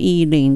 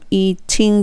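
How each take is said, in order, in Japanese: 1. t は、l に近い柔らかい弾音です。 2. t は、はっきりとした鋭い t の音です。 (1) "eating でいいです。l に近い音で" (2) "eating じゃなくて"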